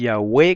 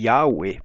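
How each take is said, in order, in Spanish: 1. El acento cae en la última sílaba. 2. El acento cae en la primera sílaba. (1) "con acento en la E" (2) "pero eso es por influencia americana"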